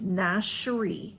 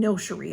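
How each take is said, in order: First: The first syllable sounds like 'nash'. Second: The first syllable does not sound like 'nash'. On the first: The speaker calls it right. "the proper pronunciation is Nashiri" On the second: The speaker calls it wrong. "I've been saying Noshiri, and that's been wrong"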